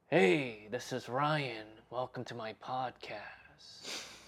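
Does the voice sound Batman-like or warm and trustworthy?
Batman-like. It is said in a Batman-like voice.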